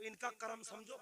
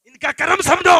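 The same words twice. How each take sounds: First: Said in the usual way. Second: Loud, high preaching shout; sudden rousing, raised-pitch shout; shouted exhortation. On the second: Real, not acted. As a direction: hammer it home at full volume. Repeats the words at full force.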